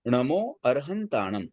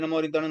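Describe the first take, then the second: First: It is said steadily with every syllable clear. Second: It is said fast with syllables slurred. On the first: It is said with full devotion. The speaker calls it right. "हम एकदम स्पष्ट बोले" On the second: It is done only as a formality. The speaker calls it wrong. "जल्दी जल्दी"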